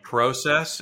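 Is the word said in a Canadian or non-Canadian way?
Canadian. It is said with a Canadian pronunciation. It marks the speaker as Canadian. "I got another one for you"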